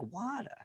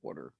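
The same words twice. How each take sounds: First: It is said in a Boston accent. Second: It is said in a Philadelphia accent.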